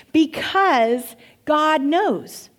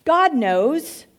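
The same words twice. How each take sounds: First: Because God knows dragged out slowly, stress on Because; slow, knowing emphasis; slow emphatic. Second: God knows pitched higher, rising on "God"; higher, knowing echo; knowing repeat. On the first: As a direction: lean on "Because" and stretch the phrase. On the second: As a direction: lift "God" up with a knowing rise. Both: Shown as a demonstration.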